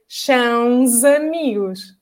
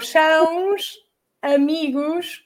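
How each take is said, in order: First: The final s sounds like z. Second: The final s sounds like sh. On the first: The speaker calls it right. "then it's going to sound like z" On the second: The speaker calls it wrong. "an S at the end is going to sound like a sh"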